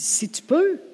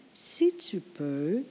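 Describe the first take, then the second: First: "Si tu peux" with peux rising high; Jesus echoing "peux" in doubt, tone lifting; incredulous si tu peux. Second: "Si tu peux" slow and soft, trailing open; drawn-out si tu peux. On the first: Jesus echoes the father, "peux" rising incredulous. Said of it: "Jésus lui dit". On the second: Preacher shows what Jesus did not say, slow and soft. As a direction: let "Si tu peux" hang, slow and quiet. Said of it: "Il n'a pas dit". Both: Shown as a demonstration.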